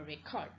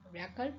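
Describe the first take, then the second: First: Record with the second syllable stressed, re-CORD; verb stress on record. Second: Record with the first syllable stressed, RE-cord; noun stress on record. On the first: Lecturer contrasting two variations of stress, record stressed on the second syllable. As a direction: hit the end of record, as a verb. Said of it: "use it as a verb". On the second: Lecturer contrasting two variations of stress, record stressed on the first syllable. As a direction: hit the start of record, as a noun. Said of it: "When it will be a noun". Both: Shown as a demonstration.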